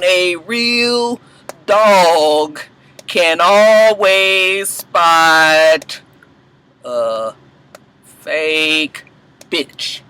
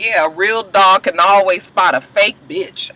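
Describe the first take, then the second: First: Word by word, drawn out with long pauses; broken down slowly. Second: Said in the usual way. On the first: Shown as a demonstration. Vlogger breaks down a great one-liner, very slow word by word. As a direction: savor every word, stretching "always" and stopping before "fake" and "bitch". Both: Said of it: "I had to write that down".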